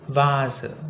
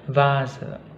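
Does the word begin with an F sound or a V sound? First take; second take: V sound; V sound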